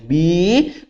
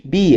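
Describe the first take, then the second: First: BI drawn out with the tone lifting; teacher's stretched BI as a prompt; emphatic, prolonged syllable. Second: Said in the usual way. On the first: Shown as a demonstration. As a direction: hold the vowel of BI long. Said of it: "prolongando a primeira sílaba". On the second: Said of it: "A criança fez".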